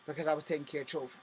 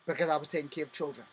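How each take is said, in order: Both takes have the same delivery.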